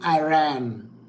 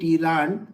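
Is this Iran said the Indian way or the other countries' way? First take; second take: other countries; Indian. First: It is said with other countries' pronunciation. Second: It is said with an Indian pronunciation. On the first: "other countries say" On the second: "In India we say it"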